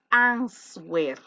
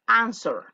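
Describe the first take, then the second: First: "answer" said with the W sounded, ans-wer; wrong pronunciation. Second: "answer" said AN-ser, with silent W; correct pronunciation. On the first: Teacher shows students the mistake, "answer" with a spoken W. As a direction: pronounce "answer" as spelt, stretched into ans-WER. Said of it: "esta palabra no se dice answer". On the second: Teacher corrects the students, "answer" with silent W. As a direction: model "answer" in two beats, no W sound. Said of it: "no, es answer". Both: Shown as a demonstration.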